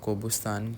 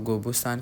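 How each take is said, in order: First: The name begins with a voiceless k sound. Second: The name begins with a voiced g sound. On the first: This is how locals say it in their language. "उनकी language में इसको कोबुस्तान करके pronounce करते हैं" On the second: This is how outsiders would say it. "हम तो गोबुस्तान कहेंगे"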